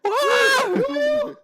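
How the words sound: It sounds loud and excited.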